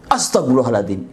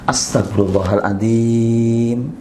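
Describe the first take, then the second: First: The phrase is said in a startled, surprised tone. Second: The phrase is said in a flat, even tone. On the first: The person has been taken by surprise. "Dia kaget sehingga istighfarnya seperti itu" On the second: The person sincerely recognizes a mistake and asks forgiveness. "itu kalau istighfarnya datar, flat"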